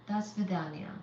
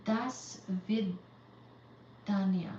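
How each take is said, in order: First: Said in the usual way. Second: "Das vidania" said very slowly, syllable by syllable; slowly sounded out. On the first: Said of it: "repeating at normal pace". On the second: Shown as a demonstration. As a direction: drag out each sound of "Das vidania" as if unsure. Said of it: "sounding out Russian goodbye".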